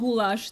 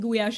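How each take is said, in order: First: The word ends in a 'lash' sound. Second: The word ends in a 'yahsh' sound. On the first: "So it's not goulash the way... in English it is" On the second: "You pronounce it gulyás in Hungarian"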